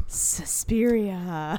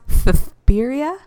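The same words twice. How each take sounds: First: "Suspiria" with a plain English s; American Suspiria. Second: "Suspiria" with th for s, thuh-THPEER-ee-uh; lisped Spanish Suspiria. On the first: Co-host's take, said the American way with an s sound. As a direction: say "Suspiria" as suh-SPEER-ee-uh. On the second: Correcting her co-host with a Castilian th for each s. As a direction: lisp both s sounds in "Suspiria". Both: Shown as a demonstration. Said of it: "I think it's pronounced".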